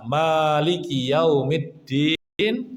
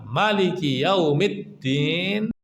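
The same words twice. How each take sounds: First: The first vowel of Maliki is long. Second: The first vowel of Maliki is short. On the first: It means owner of the Day of Judgment. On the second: It means king of the Day of Judgment.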